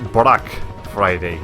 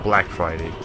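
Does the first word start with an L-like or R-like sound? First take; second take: R-like; L-like. First: The first word is said with an R-like sound. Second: The first word is said with a clear L sound. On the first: It imitates a Japanese speaker's pronunciation. "Brack Friday because it was Japanese Sony representative saying it" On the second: It is the ordinary pronunciation.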